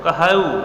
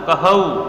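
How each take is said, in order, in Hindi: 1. अंतिम स्वर लंबा खींचकर बोला गया है। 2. अंतिम स्वर लंबा खींचकर बोला गया है।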